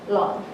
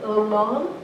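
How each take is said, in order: First: It begins directly with a tapped consonant. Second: It begins with an added 'ul' sound. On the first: The speaker calls it wrong. "The Korean way of pronouncing it" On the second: The speaker calls it right. "pretend like you're pronouncing an ul at the beginning"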